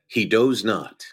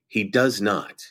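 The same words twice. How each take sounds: First: The word 'does' rhymes with 'rose'. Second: The word 'does' rhymes with 'buzz'. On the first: The speaker calls it wrong. "it says" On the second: The speaker calls it right. "instead of saying"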